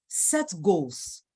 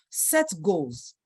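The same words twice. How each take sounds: The two takes are said the same way.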